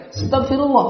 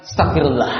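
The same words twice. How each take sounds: First: "Astagfirullah" lebih utuh, lebih tinggi; istigfar diperbaiki. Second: "Astagfirullah" ditelan jadi "stafirla", lebih rendah; istigfar salah. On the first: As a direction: ucapkan lengkap dan jelas. (istigfar yang benar) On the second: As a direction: ucapan istigfar yang terpotong. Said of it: "Contoh lain". (istigfar asal-asalan) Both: Shown as a demonstration.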